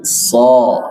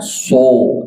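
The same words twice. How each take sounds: First: So with a wide, open a-like vowel; open mouth. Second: So drawn out with rounded o; pouted lips. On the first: Teacher correcting the mothers' reading, open-mouthed so. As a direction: open the jaw on "so". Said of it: "tapi so". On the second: Teacher showing the wrong reading, pouted so. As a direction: pucker on "so". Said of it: "Bukan so". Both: Shown as a demonstration.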